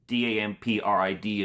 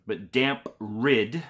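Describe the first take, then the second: First: D A M P R I D spelled out one letter at a time, evenly. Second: Said in the usual way. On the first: Shown as a demonstration. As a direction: spell D A M P R I D clearly, each letter separate.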